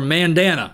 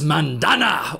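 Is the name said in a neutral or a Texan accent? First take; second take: Texan; neutral. First: The name is said in a Texan accent. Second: The name is said in a neutral accent.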